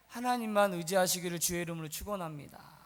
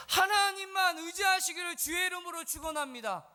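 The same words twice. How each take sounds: First: Solemn blessing, pitched low; restrained, low-pitched benediction. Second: High, ringing pulpit blessing; impassioned, high-pitched benediction; forceful blessing. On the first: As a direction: pronounce the blessing low and steady. First blessing, low before raised repeat. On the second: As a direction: proclaim the blessing with raised voice. Same blessing repeated at full force. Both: Real, not acted.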